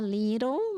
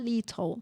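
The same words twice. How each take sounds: First: It is said with an American accent. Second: It is said with a British accent.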